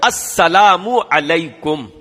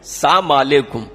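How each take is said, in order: First: The greeting is said fully with every sound clear. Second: The greeting is said quickly with sounds dropped. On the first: It is a proper prayer for the other person. The speaker calls it right. "यह है सलाम" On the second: It no longer carries the meaning of a blessing. The speaker calls it wrong. "इतना हल्के में यूं करके कह देते हैं"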